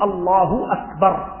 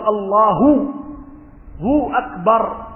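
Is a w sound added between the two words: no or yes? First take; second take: no; yes. First: No w sound is added before the second word. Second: A w sound is added before the second word. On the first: The speaker calls it right. "بدون أن تأتي بالواو" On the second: The speaker calls it wrong. "تأتي بحرف معه"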